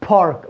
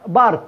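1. الـ p الأولى تُنطق مع نفخة هواء. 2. الصوت الأول بدون نفخة، مثل الـ b. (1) "park بتخرج الهواء" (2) "احنا عشان مش متعودين نخرج الهواء فبنطقها هذه دائما اللي بارك"

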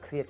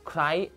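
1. คำนี้ออกเสียงเหมือน 'kree-at' มีเสียง t ท้ายคำ 2. คำนี้ออกเสียงเหมือน 'cry' ไม่มีเสียง t ท้ายคำ (1) "บางคนก็อ่านว่าเครียด" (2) "เขาบอกว่าพี่ไอซ์ครับอ่านว่า"

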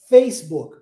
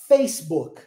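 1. A ênfase está na primeira sílaba. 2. A ênfase está na primeira sílaba.

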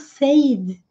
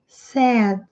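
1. A vogal soa como a vogal de 'say'. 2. A vogal soa como a vogal de 'bed'. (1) "Vejo muita gente falando said, por influência da pronúncia no presente" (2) "mas não é. É said"

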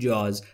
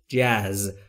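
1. این کلمه یک مصوت به سبک فارسی دارد. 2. این کلمه یک مصوت به سبک انگلیسی دارد. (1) "که ما در فارسی بهش میگیم جاز" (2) "ولی تلفظ درستش جاز"

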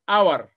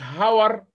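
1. الكلمة تبدأ مباشرة بصوت حرف علة. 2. الكلمة تبدأ بصوت h واضح. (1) "قلت ايه؟" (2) "ما قلتش هاور"

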